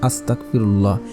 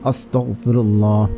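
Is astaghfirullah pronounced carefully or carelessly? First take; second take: carelessly; carefully. First: The word is pronounced loosely, sounds not fully articulated. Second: The word is pronounced carefully, each sound clearly articulated. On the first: The speaker calls it wrong. "ভুলভাবে পড়ি" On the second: The speaker calls it right. "সঠিকভাবে পড়তে হবে এভাবে"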